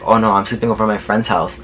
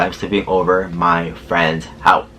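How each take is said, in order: First: Said in the usual way. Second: Exasperated, spelled-out slowness, lower pitch; slow over-enunciation. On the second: Retold or imitated. Repeating it for a driver who didn't understand, slow and emphatic. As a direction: say it word by word as if to someone slow.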